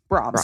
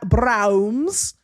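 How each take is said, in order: First: The name is said with an 'ah' vowel and m. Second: The name is said with an 'ow' vowel and n. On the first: The speaker calls it right. "They just say, they say Brahms" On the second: The speaker calls it wrong. "I like to call it bra- Browns"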